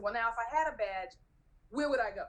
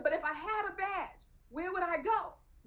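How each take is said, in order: First: Retold hopeful question to a guard; lightly acted bargaining question; reasoning plea. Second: High-pitched, exasperated insistence; acted pleading, voice climbing high; insistent plea. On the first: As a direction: try reasoning with the guard, measured. Retold argument, first try at asking. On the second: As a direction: press the question on the guard, pitched way up. Retold argument, insisting second time.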